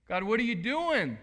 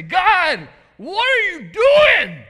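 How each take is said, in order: First: A louder, only slightly raised repeat; milder echo. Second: A full-throated, much higher cry to God; yelling at God. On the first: Pastor asking the congregation, a milder raised echo. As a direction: say it again, half pleading. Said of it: "You feel like that sometimes?". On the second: Pastor voicing a frustrated believer, yelling up at God. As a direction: yell it up at heaven, exasperated. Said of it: "you just want to yell to God". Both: Pretend.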